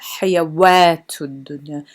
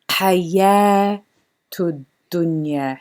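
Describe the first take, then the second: First: The first word has a w sound. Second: The first word has no w sound. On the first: The speaker calls it wrong. "not hayawatud dunya" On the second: The speaker calls it right. "So we would say hayatud dunya"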